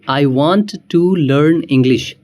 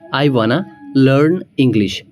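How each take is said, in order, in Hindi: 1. Want to को दो पूरे शब्दों की तरह बोला जाता है। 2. Want to एक शब्द में मिल जाता है, wanna।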